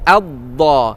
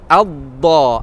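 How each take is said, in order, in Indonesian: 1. Konsonannya bunyi dh yang berat dan emfatik. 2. Konsonannya bunyi dh yang berat dan emfatik.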